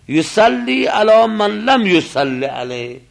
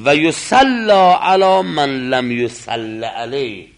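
First: The verb is voweled as active, yusalli. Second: The verb is voweled as passive, yusalla. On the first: The person praying has not yet prayed over this body. "این یک معنا" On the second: No prayer has yet been said over this body. "مجهول میخونیم"

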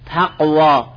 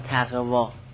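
First: The middle consonant is a hard stop. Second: The middle consonant is a soft throaty fricative. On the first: The speaker calls it right. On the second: The speaker calls it wrong.

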